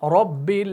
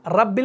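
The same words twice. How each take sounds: First: The r sound is heavy and thick. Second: The r sound is light and thin. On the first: The speaker calls it right. "रॉ को आपने मोटा करके पढ़ना है" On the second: The speaker calls it wrong. "इसको आपने रब्बिल नहीं पढ़ना"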